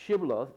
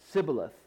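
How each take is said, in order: First: The word begins with a 'sh' sound. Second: The word begins with an 's' sound. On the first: The speaker is a Gileadite. The speaker calls it right. "they would say Shibboleth" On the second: The speaker is an Ephraimite. The speaker calls it wrong. "for he could not pronounce it right"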